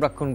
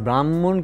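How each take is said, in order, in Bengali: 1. মাঝের যুক্তবর্ণটি 'kkh' এর মতো উচ্চারিত হয়। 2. মাঝের যুক্তবর্ণটি 'hm' এর মতো উচ্চারিত হয়। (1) "ব্রাক্ষণ ব্রাক্ষণ করে যাচ্ছি" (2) "এই ব্রাহ্মণ কিছুতেই উচ্চারণ করতে পারছি না"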